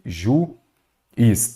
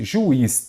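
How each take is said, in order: First: "Juiz" broken as ju... iz, with a long gap; split into syllables. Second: Said in the usual way. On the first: Shown as a demonstration. Teacher separating syllables for students, "Juiz" split ju-iz. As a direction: say "Juiz" slowly, one syllable at a time. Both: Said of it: "Vou separar em sílabas aqui".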